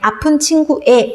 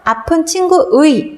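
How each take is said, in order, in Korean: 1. 마지막 모음은 단순한 e 소리입니다. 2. 마지막 모음은 활음이 있는 이중모음 ui입니다. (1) "조사이기 때문에 아픈 친구의 라고 발음할 수도 있죠" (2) "이렇게 원칙대로 발음하는 것도 맞고요"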